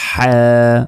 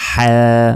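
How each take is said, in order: Both takes have the same delivery.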